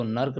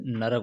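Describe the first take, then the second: First: नर्क as two syllables, र joined to क; नर्क with no vowel after र; wrong form said. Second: नरक with a full vowel after र, न-र-क; नरक stretched to show the full र; full form said. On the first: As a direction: say नर्क clipped, नर्-क. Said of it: "नहीं होता है". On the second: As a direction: say नरक in three even syllables. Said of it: "नरक होता है पूरा". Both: Shown as a demonstration.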